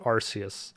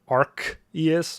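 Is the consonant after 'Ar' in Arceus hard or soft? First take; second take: soft; hard. First: The c is said as a soft s sound. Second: The c is said as a hard k sound.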